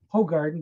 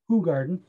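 First: The first syllable sounds like 'hoe'. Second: The first syllable sounds like 'who'. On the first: The speaker calls it wrong. "because of their American pronunciations, they're gonna call it Ho Garden" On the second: The speaker calls it right. "it's actually pronounced Who Garden"

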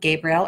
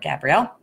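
First: The name is said in its masculine form. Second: The name is said in its feminine form. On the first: The angel is taken as male. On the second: The angel is taken as female.

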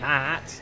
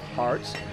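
First: It is said in a broad Australian accent. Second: It is said in an American accent. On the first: The speaker calls it right. "That's how you pronounce it in his country" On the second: The speaker calls it wrong. "my accent decided to go American just then"

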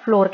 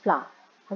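First: The word rhymes with door. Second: The word rhymes with tower. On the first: The speaker calls it wrong. "बहुत से लोग इसको फ्लावर और फ्लोर कहते हैं, but दोनों ही गलत हैं।" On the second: The speaker calls it right. "दोनों का प्रोनंसिएशन फ्लावर है"

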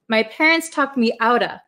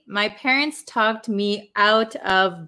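First: Out of is linked quickly with a flapped T. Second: Out of is said slowly with separate words. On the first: "if I say it like in natural conversation" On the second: "if I say it slowly"

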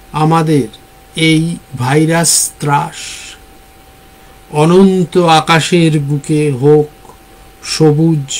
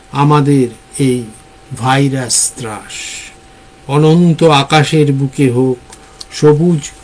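Both takes have the same delivery.

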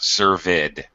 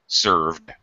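First: The word is said as two syllables. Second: The word is said as one syllable. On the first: The speaker calls it wrong. "not served" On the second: The speaker calls it right. "Served, not served. Served. One syllable"

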